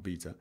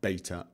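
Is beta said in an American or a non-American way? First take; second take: non-American; American. First: The word is said a non-American way. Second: The word is said the American way. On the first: The speaker calls it wrong. "not beta" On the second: The speaker calls it right. "Here in America, we pronounce it beta"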